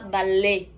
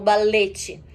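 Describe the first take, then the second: First: The final t sound is silent. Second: A final t sound is pronounced. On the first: The speaker calls it right. "se fala ballet" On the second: The speaker calls it wrong. "Também não se fala balete"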